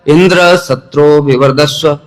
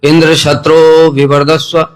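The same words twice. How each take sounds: First: The pitch is high on indra, low on shatru. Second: The pitch is high on shatru, low on indra. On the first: Indra himself should grow. The speaker calls it wrong. "अब इंद्र की वृद्धि हो गई, शत्रु निम्न हो गया" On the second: The enemy of Indra should grow. The speaker calls it right. "शत्रु में उच्च इंद्र में निम्न"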